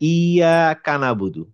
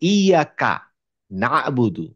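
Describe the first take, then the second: First: The syllable ka is joined to the following word. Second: The syllable ka is joined to the preceding word. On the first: The speaker calls it wrong. "It's wrong." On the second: The speaker calls it right. "আপনাকে বলতে হবে"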